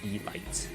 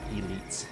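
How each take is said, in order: First: The second syllable sounds like 'lights'. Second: The second syllable sounds like 'leets'. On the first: The speaker calls it wrong. "not E-lights" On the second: The speaker calls it right. "it's zealots and elites"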